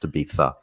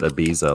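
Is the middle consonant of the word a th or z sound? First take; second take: th; z. First: The middle consonant is a th sound. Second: The middle consonant is a z sound. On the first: The speaker calls it right. "it's actually pronounced Ibiza, like there's a th there" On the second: The speaker calls it wrong. "He pronounces it Ibiza like a fool"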